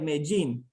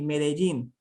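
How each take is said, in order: First: Miami-style, vowels dropped, with a J-like sound for D. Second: Neutral Spanish pronunciation with all vowels and a clear D. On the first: "kind of like a Miami accent ... dropping the some of the vowels ... a J sound for the D" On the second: "a neutral pronunciation of the city, it would be Medellin in Spanish"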